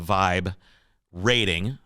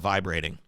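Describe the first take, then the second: First: The phrase is said slowly, words kept apart. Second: The phrase is said quickly, running together.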